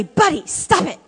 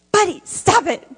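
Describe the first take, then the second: First: Sharp yell of "Buddy, stop it" at the dog. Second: Put-on "Buddy, stop it" yelled higher like a five-year-old copying; imitating a little boy. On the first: Retold or imitated. Speaker scolding the dog Buddy, mock yell. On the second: Foster son copying the speaker's yell at the dog. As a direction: echo the parent like a small boy. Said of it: "Dominic says".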